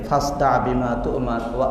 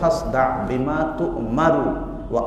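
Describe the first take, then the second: First: The final vowel of tu'mar is dropped. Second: The final vowel of tu'mar is pronounced. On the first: The speaker calls it wrong. "এখানে তুমার শব্দ করতে গিয়ে সাকিন করে পড়ে" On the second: The speaker calls it right. "স্পষ্ট রূপে পড়তে হবে"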